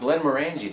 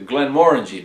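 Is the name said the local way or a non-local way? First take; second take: non-local; local. First: The name is said in a non-local way. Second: The name is said the way locals say it. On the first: The speaker calls it wrong. "I'm pronouncing that wrong" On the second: The speaker calls it right. "That's how they pronounce it there"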